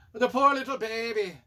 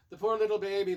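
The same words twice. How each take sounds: First: Loud, higher mock-Scottish lament; hammed-up Scottish pity. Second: Said in the usual way. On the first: Reviewer pitying the kidnapped baby, in mock Scottish. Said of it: "saying that in Scottish".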